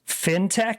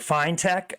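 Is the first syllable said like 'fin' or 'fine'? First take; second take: fin; fine. First: The first syllable sounds like 'fin'. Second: The first syllable sounds like 'fine'. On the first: The speaker calls it wrong. "I always say fintech like shark fin" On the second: The speaker calls it right. "It's fine tech"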